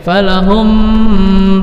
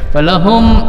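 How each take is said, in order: First: The final m is blurred and drawn out. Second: The final m is clear and short. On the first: The speaker calls it wrong. "jangan dibaca falahum, salah" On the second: The speaker calls it right. "dibaca jelas, dibaca pendek"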